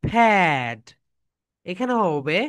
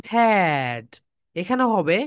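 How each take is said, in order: Both takes have the same delivery.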